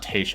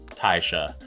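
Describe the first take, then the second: First: The first syllable sounds like 'ta'. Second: The first syllable sounds like 'tie'. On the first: The speaker calls it wrong. "I'm saying that wrong" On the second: The speaker calls it right. "It's Taisha"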